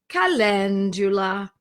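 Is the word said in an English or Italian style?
Italian. It is said with an Italian-style pronunciation. The speaker calls it right. "it's calendula"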